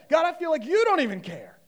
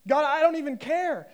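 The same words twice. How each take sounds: First: "you" punched high and loud; stress on YOU. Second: "don't" pushed high and loud; stress on DON'T. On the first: Preacher voicing complaint to God, stress on "you". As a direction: throw the accusation onto "you" at full voice. Acted prayer, turns it on God. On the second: Preacher voicing a frustrated prayer, stress on "don't". Acted prayer, contrasted with next line. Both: Acted.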